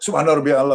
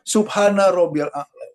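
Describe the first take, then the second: First: The phrase is rushed with no pauses. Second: The phrase is said slowly and calmly. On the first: The prayer is done hastily without stillness. The speaker calls it wrong. "masih cepat-cepat" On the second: The prayer is done with proper stillness. The speaker calls it right.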